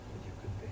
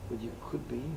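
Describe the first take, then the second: First: Preacher whispering the point to the congregation; whispered. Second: Said in the usual way. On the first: Real, not acted. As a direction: drop to a breathy whisper. Repeated line, now whispered.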